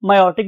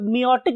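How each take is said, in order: First: The first syllable sounds like 'my'. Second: The first syllable sounds like 'mee'. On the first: "जो लोग इसे मायोसिस pronounce करते हैं वो इसे मायोटिक अपरेटस बोलते हैं" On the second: "जो लोग देसी स्टाइल में इसे मियोसिस कहते हैं"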